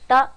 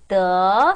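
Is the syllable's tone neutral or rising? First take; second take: neutral; rising. First: The syllable is short and light with no tone. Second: The syllable is said with a rising tone. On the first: "경성으로 더, 성조가 없는 더 소리 나고요" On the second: "이성으로 더 소리 나고요"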